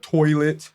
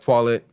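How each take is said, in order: First: It is said with an English accent. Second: It is said with a French accent.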